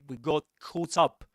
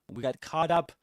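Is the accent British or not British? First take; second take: British; not British. First: It is said in a British English accent. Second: It is said in a non-British accent.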